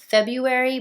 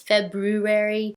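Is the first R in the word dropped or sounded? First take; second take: dropped; sounded. First: The first R sound is left out. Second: The first R sound is clearly pronounced. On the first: This is how most people say it. "Everyone says February" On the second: This matches how the word is spelled. "it's February with an R"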